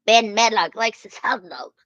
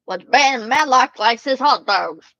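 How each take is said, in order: First: Said in the usual way. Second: Louder, eager announcement; excited raised voice. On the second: Real, not acted. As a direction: call it out with glee. Excited about Matlock.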